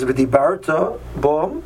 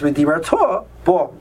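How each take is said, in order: First: The stress falls on the second-to-last syllable, bar. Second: The stress falls on the last syllable, ta. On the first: It describes speaking that already happened. The speaker calls it wrong. "not under the base" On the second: It tells someone to speak in the future. The speaker calls it right. "the trup is under the tuff at the end"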